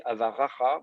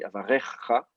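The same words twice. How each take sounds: First: Avaracha with a plain a in the middle; wrong vowel. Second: Avarecha with an e in the middle; correct ségol. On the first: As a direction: say Avaracha, open a sound as the mistake. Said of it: "je crois que tu as dit Avaracha". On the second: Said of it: "c'est un ségol ici". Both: Shown as a demonstration.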